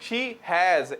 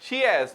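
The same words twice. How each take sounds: First: The h sound in has is pronounced. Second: The h sound in has is dropped. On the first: "ना के" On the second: "इनकी आदत है एच को silent करने की"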